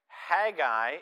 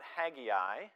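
First: The name is said without an extra 'i' sound. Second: The name is said with an extra 'i' sound. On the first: The speaker calls it right. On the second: The speaker calls it wrong.

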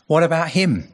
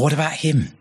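First: The question sounds indignant and resentful. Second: The question sounds hopeful and warm. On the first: He resents that the other man may get off lightly. "Why should he get away lightly? Why, I've got the difficult job" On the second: He hopes his companion will come along with him. "Is John coming too? I'm going to need him to make this work"

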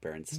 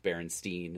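First: The last syllable sounds like 'stain'. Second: The last syllable sounds like 'steen'. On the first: This is the actual version of the name. The speaker calls it right. "and not" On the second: This is the remembered version of the name. The speaker calls it wrong. "I would have sworn it was"

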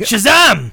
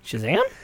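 First: The voice falls at the end. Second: The voice rises at the end.

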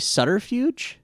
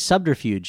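First: The B sound is silent or skipped. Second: The B sound is clearly pronounced. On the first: "I've always pronounced the B as sort of silent" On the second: "I pronounce the B"

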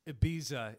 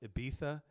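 First: The middle consonant is a plain s sound. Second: The middle consonant is a lisped th sound. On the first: The speaker calls it wrong. "spelled like I just said it" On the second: The speaker calls it right. "it's actually pronounced Ibiza"

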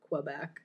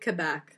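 First: It begins with a kw sound. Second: It begins with a plain k sound. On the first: This is how Americans say it. "Americans put the Q in there" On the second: This is how the locals say it. "I think Quebec is how they pronounce"

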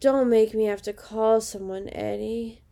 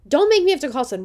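First: It is said in a sleepy, depressed way. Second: It is said in a forceful, alert way.

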